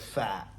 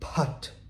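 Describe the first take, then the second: First: The word begins with an f sound. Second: The word begins with a p sound. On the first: The speaker calls it wrong. "you're probably like fat, right? And you pronounce it wrong" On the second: The speaker calls it right. "The pa noise"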